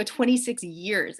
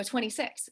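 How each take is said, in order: First: "Twenty-six years" said slowly, each word spaced out; slow repeat. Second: Said in the usual way. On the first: Retold or imitated. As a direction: spell out "Twenty-six years" slowly for someone who didn't catch it. Repeats after he says what.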